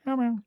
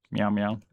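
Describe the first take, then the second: First: High cat meow. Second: Said in the usual way. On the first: Real, not acted. Meowing at the cat.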